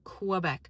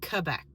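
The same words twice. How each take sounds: First: It begins with a kw sound. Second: It begins with a plain k sound. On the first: The speaker calls it wrong. "I'm also really annoyed that we say Quebec" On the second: The speaker calls it right. "it would not be hard for us to say Quebec"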